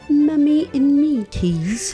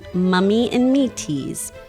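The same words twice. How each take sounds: First: It is said in a British accent. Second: It is said in the speaker's usual accent.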